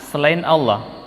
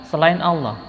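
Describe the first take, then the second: Both takes have the same delivery.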